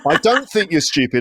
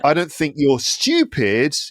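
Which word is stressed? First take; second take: don't; stupid. First: The stress falls on the word don't. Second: The stress falls on the word stupid. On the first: The denial is sincere. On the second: The listener is something else, not stupid. "you're just different"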